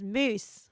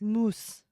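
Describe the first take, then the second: First: It is said with an Australian pronunciation. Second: It is said with a French pronunciation. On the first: "Australian is moose" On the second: "the French say"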